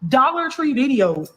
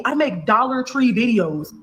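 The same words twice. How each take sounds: First: "Dollar" hit hard and slow; slow, stressed DOLLAR. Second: Each word laid out slowly; spelling it out for viewers, slowly; slow, pointed. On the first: To viewers repeating her point, slow and disbelieving. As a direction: drag out Dollar Tree in disbelief. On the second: To viewers mocking the gold digger claim, slow and pointed. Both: Real, not acted. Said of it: "y'all literally see".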